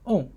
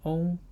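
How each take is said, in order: First: The pitch falls sharply from high to low. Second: The pitch stays high and level.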